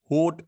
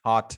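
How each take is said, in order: First: होट with a long "oh" vowel instead of the short vowel; wrong vowel. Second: हॉट with a short open "aw" vowel; correct short vowel. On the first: Teacher shows the wrong vowel in hot. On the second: Teacher models the right vowel in हॉट. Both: Shown as a demonstration. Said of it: "होट नहीं बोल रहे हैं आप".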